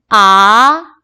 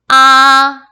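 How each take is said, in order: First: The pitch rises from mid to high. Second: The pitch stays high and level. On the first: "제 이성은 미에서 솔까지 올라가는 거예요" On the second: "일성은 솔의 기준으로 평평하고 높게"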